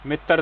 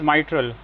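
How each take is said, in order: First: It begins with a short 'mit' sound. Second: The first syllable sounds like 'my'. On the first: The speaker calls it wrong. "मित्तर नहीं" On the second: The speaker calls it right. "तो it is माइट्रल"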